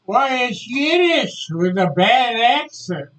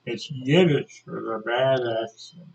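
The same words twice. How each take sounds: First: High, loud, gleeful announcement; acted triumphant schoolboy; proud pupil's reveal. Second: Said in the usual way. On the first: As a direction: blurt the secret out brightly, imitating a schoolboy. Pupil proudly retold giving secret.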